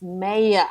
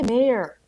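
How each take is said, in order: First: It is said with an Australian accent. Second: It is said with an American accent. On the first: The speaker calls it right. "He's like, no, it's mayor" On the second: The speaker calls it wrong. "I would say mayor"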